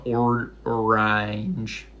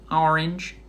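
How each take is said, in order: First: "orange" stretched out, ending like "range"; exaggerated ending. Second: "Orange" as OR-inj, rising at the end; short "Orange" with a questioning lift; usual pronunciation. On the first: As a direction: draw out the "ange" in "orange". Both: Shown as a demonstration. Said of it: "The Ange part of orange is out there".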